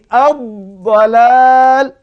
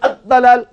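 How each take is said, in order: First: The dh sound is drawn out long. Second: The dh sound is cut short. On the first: The speaker calls it right. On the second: The speaker calls it wrong. "Tak betul"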